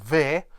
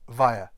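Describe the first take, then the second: First: It begins with v and has a short vowel. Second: It begins with v and rhymes with fire. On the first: The speaker calls it wrong. "or ver" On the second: The speaker calls it right. "but via, as in fire"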